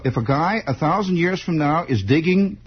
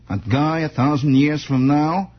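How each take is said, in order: First: Said in the usual way. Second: A hint of a movie-star impression; Jimmy Cagney. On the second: Host slipping accidentally into an actor's voice, lightly done impression. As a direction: lightly slip into a screen star's delivery. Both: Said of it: "almost fell into Jimmy Cagney there".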